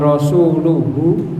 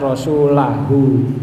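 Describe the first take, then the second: First: The vowel after rasul is u. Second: The vowel after rasul is a. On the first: The Messenger becomes the one who does the obeying. The speaker calls it wrong. "Kalau sampai salah misalnya wa rasuluhu jadi lumak rasulu itu nanti rasul jadi pelakunya" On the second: The Messenger is the one who is obeyed. The speaker calls it right. "maka harus dibaca rasulahu"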